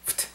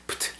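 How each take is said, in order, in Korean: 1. 끝소리가 또렷하고 가볍게 들려요. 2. 끝소리가 무겁고 둔하게 들려요. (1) "세탁이지 가벼운 발음이 나죠" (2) "이건 뭔가 좀 둔탁한 발음이 나죠"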